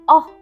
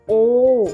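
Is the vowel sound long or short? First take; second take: short; long. First: The vowel sound is short and clipped. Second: The vowel sound is long and stretched. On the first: "very short sound of letter O" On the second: "the long vowel sound of letter O says O"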